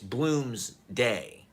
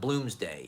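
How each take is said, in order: First: The name is said as two separate words. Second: The name is run together as one word. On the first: The speaker calls it right. "It's two words for one thing. ... is how you're meant to kind of pronounce it" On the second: The speaker calls it wrong. "It's not Bloomsday"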